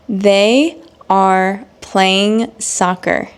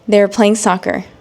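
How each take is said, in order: First: It is spoken slowly with full words. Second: It is spoken at normal pace, contracted. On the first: "examples again in slow English" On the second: "then I will provide the normal speed"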